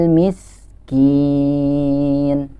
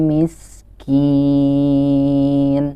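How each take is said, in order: Both takes have the same delivery.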